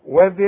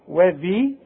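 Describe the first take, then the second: First: The vowel after the dh sound is short. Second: The vowel after the dh sound is long. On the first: The word runs into the next word. "اذا وصلنا وذي القربى يبقى عندي ذال بس" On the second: The reciter pauses on this word. "اذا وقفت وانت هتقف وهتقول لي وذي"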